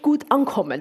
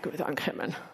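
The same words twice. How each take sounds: First: It sounds genuinely pleased and enthusiastic. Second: It sounds flat and unconvinced, contradicting the words. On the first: The evening really went well. "boah, das war super" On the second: The evening did not really go well. "mit einem ganz anderen Paracurriculum"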